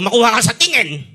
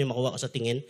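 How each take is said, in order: First: Louder, stern warning; stern mother. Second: Said in the usual way. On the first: Retold or imitated. Mother warning her child with a look, stern and louder. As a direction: warn the child like a strict mom. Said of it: "Yung nanay ko". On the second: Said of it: "Mga nanay, pag sinasabi".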